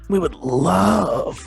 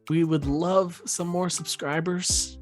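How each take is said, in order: First: The word love is said raspy. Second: The word love is said plainly.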